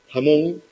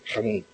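First: The first sound is a soft breathy h. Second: The first sound is a harsh throaty j. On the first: This is how it is said in Lower Andalusia. "en Andalucía Baja dicen jamón" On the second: This is how it is said in Granada. "pero en Granada dicen jamón"

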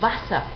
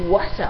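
First: The word begins with a v sound. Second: The word begins with an English-like w sound. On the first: The speaker calls it right. "La W en alemán se pronuncia como una V siempre" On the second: The speaker calls it wrong. "nada de Wasser o algo parecido"

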